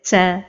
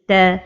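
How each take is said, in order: First: The t is released with heavy breathy air. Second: The t is released with only light breath. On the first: The speaker calls it wrong. "give a lot of hams, which is whisper" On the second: The speaker calls it right. "the right pronunciation is ta"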